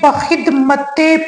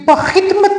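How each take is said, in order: First: The word ends with an added e vowel. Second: The word ends on the consonant t. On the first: The speaker calls it right. "बल्कि बखिदमते पढ़ा जाएगा" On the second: The speaker calls it wrong. "बखिदमत नहीं"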